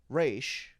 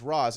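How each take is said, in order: First: The name ends with an 'sh' sound. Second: The name ends with a 'z' sound. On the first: This is how one character says the name. "he says Raish Al Ghul" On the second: This is how most people say the name. "everyone says Roz"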